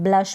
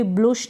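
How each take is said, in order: First: Said in the usual way. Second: ब्लुश with an oo vowel; wrong pronunciation. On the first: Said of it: "ब्लश पढ़ें". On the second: Shown as a demonstration. Teacher rejects a reading of blush, mispronounced ब्लुश. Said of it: "ब्लुश ना पढ़ें".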